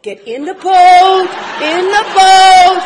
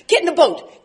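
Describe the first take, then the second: First: Insistent urging shout. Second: Said in the usual way. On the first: Retold or imitated. Urging Ron, insistent repeat.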